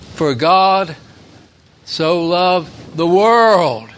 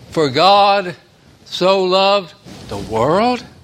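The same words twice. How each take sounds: First: The word world is strongly stressed. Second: The word world is not strongly stressed.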